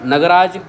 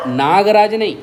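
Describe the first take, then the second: First: नगराज said with short a: na-ga-raj, not naag; correct pronunciation. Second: नागराज with long aa, marked as wrong; wrong pronunciation shown. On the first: Teacher to students, correcting the word नगराज clearly. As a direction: stress the short first syllable of नगराज. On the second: Teacher showing students the common mistake नागराज. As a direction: stretch the aa in नागराज to show the error. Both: Shown as a demonstration.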